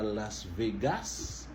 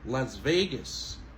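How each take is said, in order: First: The stress is not on Ve. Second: The stress is on Ve. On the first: The speaker calls it wrong. "C'est pas Las Vegas" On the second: The speaker calls it right. "On monte sur veille"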